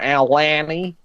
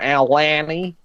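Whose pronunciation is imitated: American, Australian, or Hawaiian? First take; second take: Australian; Australian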